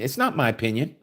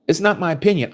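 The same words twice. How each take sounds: First: Said in the usual way. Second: "not" hit harder, pitch higher; emphatic repeat. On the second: Real, not acted. Preacher repeats denial to listeners, stress on "not".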